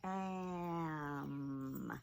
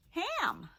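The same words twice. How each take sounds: First: AM drawn out, vowel sliding into a long m; sounded out slowly. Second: Said in the usual way. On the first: Shown as a demonstration. Teacher revealing the new word ham, sounded out slowly. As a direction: stretch AM slowly, holding both sounds. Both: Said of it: "So now our word is".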